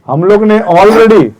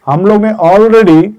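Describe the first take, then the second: No difference in how they are said.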